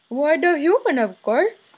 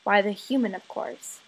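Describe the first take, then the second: First: Higher, louder put-on voice of a father; imitating father. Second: Said in the usual way. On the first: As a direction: answer grandly in your dad's voice. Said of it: "of my father asking me". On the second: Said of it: "the answer".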